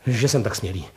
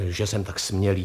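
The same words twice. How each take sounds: First: Quick burst of a polite opener; blurted out. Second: Said in the usual way. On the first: A narrator's reading. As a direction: blurt the apology before a question.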